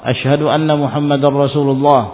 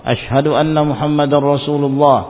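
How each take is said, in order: No difference in how they are said.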